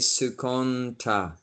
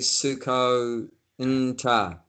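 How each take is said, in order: First: The word is said smoothly with no break. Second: The word is split with a break inside. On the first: The speaker calls it right. "you say sukonta, like that" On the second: The speaker calls it wrong. "So you don't say suko nta"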